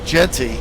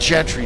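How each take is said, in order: First: The name is said with no r sound. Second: The name is said with an r sound. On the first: The speaker calls it right. "Genty, not Gentry" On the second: The speaker calls it wrong. "not Gentry"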